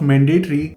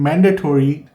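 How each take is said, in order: First: "mandatory" with a reduced "-tree" ending; usual Indian-English pronunciation. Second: "mandatory" with a full "-tory" ending; native-like pronunciation. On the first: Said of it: "instead of mandatory". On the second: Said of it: "speaking like a native English speaker". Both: Shown as a demonstration.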